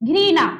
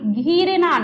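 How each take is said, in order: First: The word begins with a 'ghri' sound. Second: The word begins with a long 'ghee' sound. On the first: The speaker calls it right. "अरे उच्चारण सही करो ना" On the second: The speaker calls it wrong. "घीरना नहीं"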